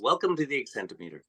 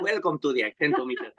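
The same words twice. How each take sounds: First: It has a light Hispanic accent. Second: It has a strong Hispanic accent.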